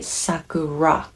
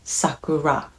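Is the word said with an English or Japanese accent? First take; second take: English; English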